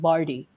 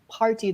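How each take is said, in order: First: The word begins with a B sound. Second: The word begins with a P sound. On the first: "they'd say like Bardi, like this" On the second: "instead of saying party"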